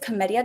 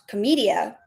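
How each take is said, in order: First: It is pronounced the Italian way. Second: It is pronounced in a non-Italian way. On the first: This is the historical name of the art form. "I think the historical way is Commedia dell'arte" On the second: This is the characters' family name. "their last name is pronounced Commedia"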